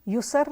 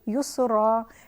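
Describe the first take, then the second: First: The word ends on a bare consonant. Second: The word ends with a long a vowel. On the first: The speaker calls it wrong. "यहाँ पर हम इसको युसर नहीं पढ़ेंगे" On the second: The speaker calls it right. "बल्कि युसरा"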